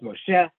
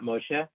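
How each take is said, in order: First: The stress is on the last syllable. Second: The stress is on the first syllable. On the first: The speaker calls it right. "Last syllable is Moshe" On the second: The speaker calls it wrong. "not Moshe"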